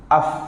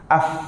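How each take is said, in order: No difference in how they are said.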